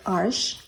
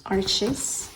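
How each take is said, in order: First: "arche" as one syllable ending in sh; French-style pronunciation. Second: "arches" with a ch sound and a final -iz; English-style pronunciation. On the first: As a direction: say "arche" like "arsh", no final -iz. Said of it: "It's French". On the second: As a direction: say "arches" as two syllables, AR-chiz. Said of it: "I don't know how to pronounce it". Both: Shown as a demonstration.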